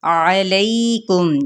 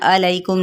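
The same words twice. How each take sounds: First: अलैकुम drawn out slowly, ain from the mid-throat; correct ain. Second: अलैकुम said plainly without the throat ain; wrong way. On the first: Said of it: "आइन को वस्ते हल्क से अदा करना". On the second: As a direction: say अलैकुम with a light ordinary a. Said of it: "अलैकुम नहीं कहना". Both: Shown as a demonstration.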